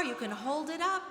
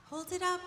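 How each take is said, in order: First: Said in the usual way. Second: "Hold it up" said again much higher, coaxing; cheerful higher "Hold it up" for the children; higher repeat. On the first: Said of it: "So if you have a star". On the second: Shown as a demonstration. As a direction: lift the pitch on "Hold it up" for the kids.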